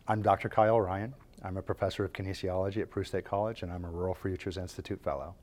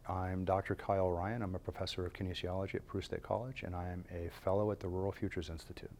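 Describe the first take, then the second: First: It is said in a smiling tone. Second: It is said in a serious tone.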